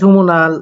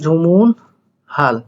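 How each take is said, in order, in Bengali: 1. মাঝের h ধ্বনিটি সম্পূর্ণভাবে বাদ যায়। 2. মাঝের h ধ্বনিটি স্পষ্টভাবে উচ্চারিত হয়।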